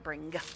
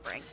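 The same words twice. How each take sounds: First: The final g sound is heavily pronounced. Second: The final g sound is soft and barely heard. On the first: The speaker calls it wrong. "not bring" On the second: The speaker calls it right. "usually just bring"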